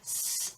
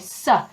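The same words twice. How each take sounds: First: A pure hissing sound with no vowel after. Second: The hissing sound ends with an added weak vowel. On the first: The speaker calls it right. "which is just the very start of the sound and the soft sound" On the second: The speaker calls it wrong. "they're adding on an extra part to the sound that isn't there"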